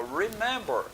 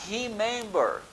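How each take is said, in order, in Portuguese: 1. O primeiro som é o R do inglês. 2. O primeiro som é um H suave, com sopro. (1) "a gente fala remember" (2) "A gente não vai falar remember"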